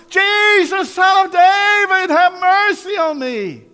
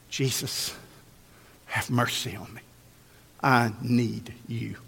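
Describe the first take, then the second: First: Full-voiced, very high drawn-out holler. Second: Low, soft, slow pleading; hushed plea. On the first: Blind beggar desperate to reach Jesus, hollering. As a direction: holler each word slowly at the top of your voice. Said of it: "he hollered out louder". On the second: Acted. Blind man humbly asking Jesus for mercy, hushed plea. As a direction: plead quietly, with long pauses.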